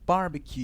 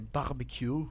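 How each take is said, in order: First: It is said with a plain English accent. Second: It is said with a French accent. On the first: "And maybe barbecue" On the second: "you say barbecue"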